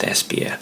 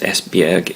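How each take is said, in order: First: The name is said like 'Espia'. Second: The name is said as it is spelled. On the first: The speaker calls it right. "it's actually pronounced Espia" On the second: The speaker calls it wrong. "isn't actually pronounced Esbjerg"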